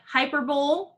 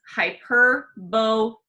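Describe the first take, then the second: First: The word ends like 'bowl', without a final 'ee'. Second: The word ends with a clear final 'ee' sound. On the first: The speaker calls it wrong. "I know it looks like hyperbole. It's not" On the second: The speaker calls it right. "Make sure you say that E sound at the end"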